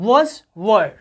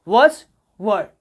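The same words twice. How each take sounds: No difference in how they are said.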